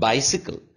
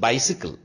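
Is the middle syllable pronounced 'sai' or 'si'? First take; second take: si; si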